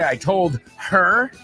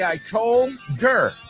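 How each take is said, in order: First: The h in her is clearly pronounced. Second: The h is dropped, d linking to er. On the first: The speaker calls it wrong. "I would never say I told her" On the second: The speaker calls it right. "la D va con la E R y se come la H"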